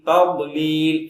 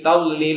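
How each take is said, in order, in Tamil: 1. நடு மெய்யெழுத்து கனமான, தடித்த dh ஆகும். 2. நடு மெய்யெழுத்து l போல ஒலிக்கும். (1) "ஓர பற்கள்ல தான் ஓர நாக்குகள் அழுத்தமா படும்" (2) "லாம பயன்படுத்தி சொல்லுவாங்க. என்டெல்லி தப்பு"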